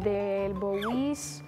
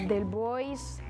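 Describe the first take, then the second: First: The surname ends with a 'bowies' sound. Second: The surname ends with a 'boys' sound. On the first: "A veces me dicen" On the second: "A veces me dicen"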